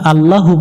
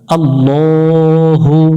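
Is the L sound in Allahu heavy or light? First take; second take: light; heavy. First: The L sound is light and thin. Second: The L sound is heavy and thick. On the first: The speaker calls it wrong. "এখানে আল্লাহু পড়া যাবে না" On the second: The speaker calls it right. "আল্লাহ শব্দের লামকে মোটা করে পড়তে হয়"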